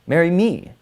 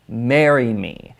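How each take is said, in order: First: The stress falls on the word me. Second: The stress falls on the word marry. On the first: Choose me instead of him. "Don't marry him, marry me" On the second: Take the important step of getting married. "the focus suddenly becomes around marriage"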